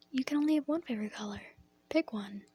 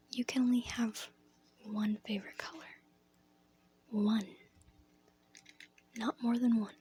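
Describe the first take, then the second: First: Lightly voiced classmate, quick at first; kindergarten partner. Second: Lightly acted teacher, measured with long pauses. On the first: Partner corrects a child with three favorites, lightly acted, quick. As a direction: rattle off the rule, then a short order. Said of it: "My partner looks at me and goes". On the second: Teacher correcting a pupil's paper, lightly acted, halting emphasis. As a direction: lay down the rule piece by piece. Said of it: "She goes".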